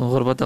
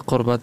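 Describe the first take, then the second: First: The word begins with a soft, throaty gh sound. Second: The word begins with a hard q sound.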